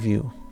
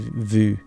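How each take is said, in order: First: It is pronounced the English way. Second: It is pronounced the French way. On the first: "Now you guys say view" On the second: "it's a French word, and it's called vue"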